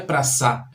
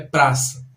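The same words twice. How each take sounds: First: The stress is on the last syllable. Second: The stress is on the first syllable. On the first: The speaker calls it wrong. "não é no sa. Não é praça" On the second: The speaker calls it right. "a tônica é no pra"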